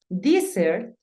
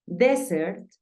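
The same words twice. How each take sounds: First: "Desert" said slowly as DEE-sert, EE first vowel; changing vowel. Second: "Desert" said slowly as DEH-sert, short E first vowel; unchanged vowel. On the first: Teacher contrasting desierto with postre, long-vowel pronunciation demo. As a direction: stretch "Desert" with a long EE up front. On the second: Teacher contrasting postre with desierto, short-vowel pronunciation demo. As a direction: say "Desert" slowly with a plain E up front. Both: Shown as a demonstration. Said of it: "pero se pronuncian diferente".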